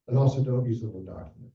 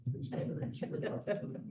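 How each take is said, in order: First: Said in the usual way. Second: Fast, soft whisper of a plea; whispered aside. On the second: Shown as a demonstration. To the trainees, a quick whispered aside.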